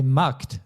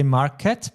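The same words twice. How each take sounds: First: Markt as one syllable, K running straight into T; no E before T. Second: Market in two syllables, with an E between K and T; wrong English-style ending. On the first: Teacher correcting a learner, Markt in one syllable with no E. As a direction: close Markt on a tight kt, no vowel between. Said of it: "There is no letter E between K and T". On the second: Teacher correcting a learner, showing the wrong market with its extra E. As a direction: say market with a clear -ket ending. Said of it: "we don't say market". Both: Shown as a demonstration.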